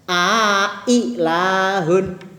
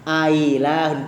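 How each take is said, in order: First: A long vowel separates two clear glottal stops. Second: The second glottal stop is softened, not fully clear. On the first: "ada alifnya di tengah-tengah antara dua hamzah" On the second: "Hamzah yang kedua nggak begitu jelas"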